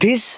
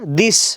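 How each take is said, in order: First: The first sound is a breathy, aspirated d. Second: The first sound is a plain, unaspirated d. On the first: The speaker calls it wrong. "याला बरेच जण धिस आणि धस म्हणतात" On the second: The speaker calls it right. "याचा उच्चार दिस"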